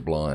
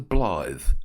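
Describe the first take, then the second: First: The word ends without a th sound. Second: The word ends with a th sound. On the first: "I think it's just the Bly" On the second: "Don't know whether you pronounce the th"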